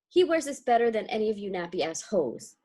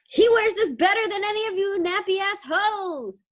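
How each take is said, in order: First: It is said as a flat falling statement. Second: It is said as a forceful exclamation.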